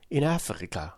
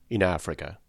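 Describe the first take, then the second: First: Higher, softer wondering echo of In Africa; Passepartout repeating. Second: Said in the usual way. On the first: A narrator's reading. Valet echoing Fix, wondering higher repeat. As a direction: echo In Africa as the wide-eyed valet, pitched up. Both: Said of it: "repeated the Passepartout".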